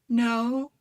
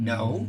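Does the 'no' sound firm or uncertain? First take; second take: uncertain; firm. First: It is said weakly, sounding unsure and tentative. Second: It is said firmly in a low grounded voice.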